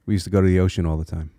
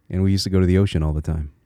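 First: Said in the usual way. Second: Quick line in a native Connecticut accent; old Connecticut accent. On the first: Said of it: "this is my default now". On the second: Shown as a demonstration. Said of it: "It's still there".

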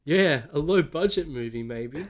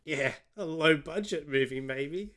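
First: Second try at English, louder but no closer; English accent attempt. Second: Odd attempt at English, drifting Australian; weird Australian accent. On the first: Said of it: "It was, it was even less like". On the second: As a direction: put on a wonky English accent, sounds Australian. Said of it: "I did a weird Australian accent".

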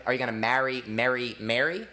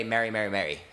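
First: "marry", "Mary", "Mary" each with its own vowel; "Are you gonna marry, Mary, Mary" said three different ways; three distinct vowels. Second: "Marry, Mary, Mary" all said with one identical vowel; "Marry, Mary, Mary" with no contrast at all; all the same vowel. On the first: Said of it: "Three different ways". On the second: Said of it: "whereas some people will say". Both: Shown as a demonstration.

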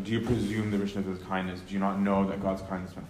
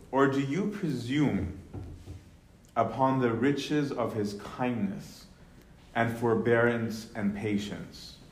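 First: Quick paraphrase. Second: "do you presume" read slow and lifted; slow scripture reading. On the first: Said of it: "rhetorical questions". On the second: Teacher reads verse four slowly to the class. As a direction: draw out the question as scripture. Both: Shown as a demonstration.

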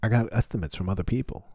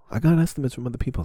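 First: Said in the usual way. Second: Higher, louder and fast, pushing the point; insist, as if haggling hard; emphatic insist. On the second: Shown as a demonstration. Haggling with the plumber over price, emphatic. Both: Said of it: "repeats it louder".

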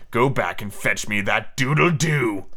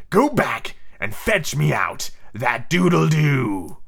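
First: Slow, understated steely order; a first, lightly voiced captain's command. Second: Very slow, theatrical steely villain; Hook. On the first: A narrator's reading. Hook ordering Ciso back into the cabin, mildly steely. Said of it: "in his most steely voice". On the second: Shown as a demonstration. Hook ordering Ciso back into the cabin, steely and theatrical. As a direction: draw out the command in full pirate captain voice. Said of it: "in the proper Hook voice".

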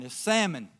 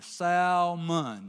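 First: "salmon" said SAM-un, the L silent; imitating the son, "salmon" with no L; son's salmon. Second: "salmon" with the L sounded, SAL-mon. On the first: Son correcting his dad at dinner, "salmon" without the L. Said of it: "Dad, it's not salmon". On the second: Shown as a demonstration. Father telling his son how he says it, "salmon" with a clear L. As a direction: say "salmon" as it's spelled, L pronounced. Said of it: "I put the L in there".

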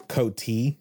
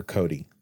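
First: "Coty" said as KOH-tee, T sounded; "Coty" with a T, not a D; T pronunciation. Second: Said in the usual way. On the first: Shown as a demonstration. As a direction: hit a clear T in "Coty". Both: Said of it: "did you say Coty or Cody".

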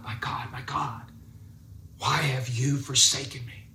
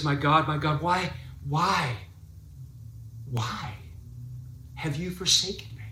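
First: Softly voiced cry of the forsaken; understated anguish; quiet desperate cry. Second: A touch of anguished outcry; lifted desperate cry. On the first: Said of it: "he gives this desperate cry to God". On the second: Retold or imitated. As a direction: lift the voice, pleading, rising to the final me. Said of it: "he lifts his voice".

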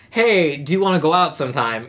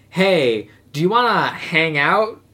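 First: Said in the usual way. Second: Slow, noncommittal invitation; casual douchebag. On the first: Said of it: "which is not". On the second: Acted. Guy vaguely asking a girl out, slow casual douchebag. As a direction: draw it out like a guy dodging the word date. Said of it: "he does the classic douchebag move".

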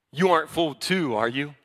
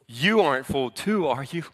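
First: Mildly condescending Pharisee. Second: Mildly condescending, doubting question. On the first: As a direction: talk down with a doubting tag question. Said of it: "Very condescending". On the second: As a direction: lean on YOU, talking down a little. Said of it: "the condescending nature". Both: Acted.

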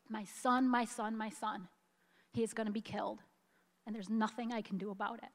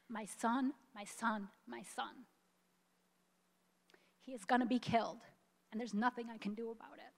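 First: Quiet, tearful repeat; tears still in the voice, fast at the end; soft choked plea as she quotes the mother again. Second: Quiet, tearful, voice catching; fighting back real tears while quoting the mother; soft choked plea, fast on the last lines. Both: Real, not acted. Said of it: "I get so choked up about this".

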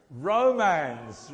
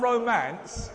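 First: "Romans" said loud, ending in a voiced "-mans"; emphatic pronunciation. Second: "romance" loud and drawn out, higher, ending in "-mance"; mispronunciation shown. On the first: Preacher correcting congregation on the book's name, "Romans" loudly enunciated. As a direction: punch out "Romans" with a clear z ending. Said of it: "Not, not romance". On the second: Preacher showing congregation the wrong book name, "romance" loudly drawn out. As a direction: stretch "romance" slowly with an s ending. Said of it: "There's no such book as romance". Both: Shown as a demonstration.

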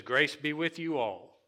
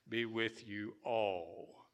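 First: Grace be with you all, raised and louder; higher, louder scripture proclaim; stressed reading. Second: Be with you all, slow and falling; slow, deliberate scripture line; slow emphatic reading. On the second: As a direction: lay out be with you all slowly. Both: Shown as a demonstration. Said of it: "but with the word grace".

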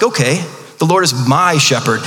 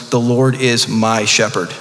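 First: Read with confidence. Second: Slow, lower, savoring each word; joyful proclamation. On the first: Retold or imitated. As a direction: declare it like you truly mean it. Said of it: "I read it with confidence". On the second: Shown as a demonstration. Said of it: "the joy in David's voice when he proclaims".

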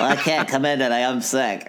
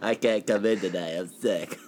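First: Put-on teen calling in sick. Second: Low, quiet sick-day mumble; teen calling in sick. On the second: Retold or imitated. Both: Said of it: "teenager calling out from work".

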